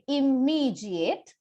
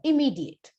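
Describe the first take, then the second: First: The m sound in the middle is said twice. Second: The m sound in the middle is said once. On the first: The speaker calls it wrong. "pronounce the mer sound twice, which is wrong. You should not say immediate" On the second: The speaker calls it right. "It has to be once one more immediate"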